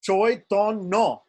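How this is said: It has 'oi' and 'o' vowels and ends 'nno'. "a Bengali will say Choitonno"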